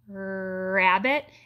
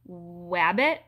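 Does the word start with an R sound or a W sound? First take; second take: R sound; W sound. First: The word starts with an R sound. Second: The word starts with a W sound. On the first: The speaker calls it right. "if you're smiling and saying rabbit" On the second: The speaker calls it wrong. "instead of then saying wabbit"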